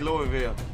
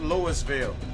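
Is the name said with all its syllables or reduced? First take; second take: reduced; all syllables. First: The name is shortened, with syllables dropped. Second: The name is said with every syllable sounded. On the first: This is how locals are heard to say it. "I'd say Louisville. And that's only because I heard it pronounced like that" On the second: This follows the spelling. "phonetically speaking, that is Louisville"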